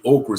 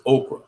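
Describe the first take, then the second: First: Okra said as "okra-ruh", with an extra syllable at the end; local okra. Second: Okra said the standard way, two syllables, "oh-kruh". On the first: Telling friends the way we say okra, three-syllable okra. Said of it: "or okra. We say okra". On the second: Correcting himself to standard okra, plain two-syllable okra. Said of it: "but it's okra". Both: Shown as a demonstration.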